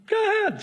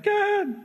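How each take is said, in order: First: Mock God's curt go-ahead, repeated. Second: Mock God's curt go-ahead.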